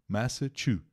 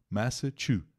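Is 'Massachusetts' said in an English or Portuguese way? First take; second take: English; English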